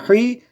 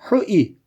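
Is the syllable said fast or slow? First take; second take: fast; slow. First: The syllable is said quickly. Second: The syllable is drawn out slowly. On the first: "Bunu 10 kere 20 kere tekrar edin hızlandırarak" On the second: "Şimdi bunu yavaş okuyacaksınız önce"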